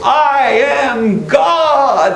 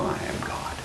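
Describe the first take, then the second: First: It is shouted with over-the-top force. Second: It is said timidly and self-consciously. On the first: The person says it with full conviction. "she's shouting it out there across the waves" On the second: The person feels silly saying it. "she sort of sheepishly stands and feels kind of silly"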